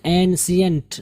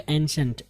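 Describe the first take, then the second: First: एंशियंट with a clear i, en-shi-ant; wrong ancient. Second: एंशंट with sh and no i, en-shunt; ancient with sh. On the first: Teacher showing students the wrong एंशियंट. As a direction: say एंशियंट with an extra i sound. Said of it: "एंशियंट नहीं होगा". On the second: Teacher showing students the right एंशंट. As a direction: squeeze एंशंट to two beats with sh. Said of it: "शाह की थोड़ी सी आवाज़ निकालेंगे". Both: Shown as a demonstration.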